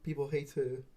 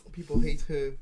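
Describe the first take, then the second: First: Said in the usual way. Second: People HATE her, hate punched much louder; stress on hate. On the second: Shown as a demonstration. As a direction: hit hate hard and loud. Repeats the claim for emphasis.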